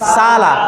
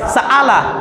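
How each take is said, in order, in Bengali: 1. একটি দীর্ঘ স্বরধ্বনি শোনা যায়, কোনো বিরতি থাকে না। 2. পূর্ণ কণ্ঠনালি-বিরতি দুটি স্বরধ্বনিকে আলাদা করে দেয়। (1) "আলিফ থাকলে সালা" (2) "যদি অ্যাপ্রোপ্রিয়েট হামজার উচ্চারণ করি তাহলে এটা উচ্চারণ হবে সাআলা"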